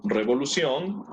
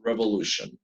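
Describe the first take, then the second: First: Revolución with Spanish rolled r and ción as sion; Spanish reading of revolución, rising at the end; Spanish pronunciation. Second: Revolution with English shun ending; English pronunciation. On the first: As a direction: say revolución the Spanish way, crisp syllables. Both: Shown as a demonstration. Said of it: "I'm sorry, revo".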